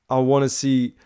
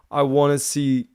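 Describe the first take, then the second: No difference in how they are said.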